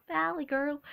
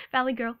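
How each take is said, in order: First: A hint of valley girl; lightly put-on valley girl accent. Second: Said in the usual way. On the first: Shown as a demonstration. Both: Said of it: "Sometimes I have a valley girl".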